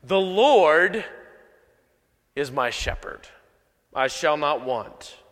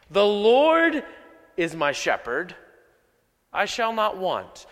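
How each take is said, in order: First: Said in the usual way. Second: Each phrase set apart with pauses; slow down and weigh every word; slow, deliberate reading. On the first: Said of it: "we just kinda rush through things". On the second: Shown as a demonstration. Reading the psalm slowly so the congregation hears it. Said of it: "let's just slow down for just a second".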